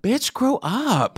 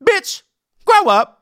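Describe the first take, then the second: First: Slow "Bitch, grow up." with falling "grow"; corrected title read. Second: High loud punchy "Bitch, Grow Up."; sassy title read. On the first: Host repeating the title as the guest said it, slow and falling. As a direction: say "Bitch, grow up." slowly, letting "grow" drop. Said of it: "How would you say it?". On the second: Host announcing the guest's special title, high loud sass. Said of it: "In that inflection". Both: Shown as a demonstration.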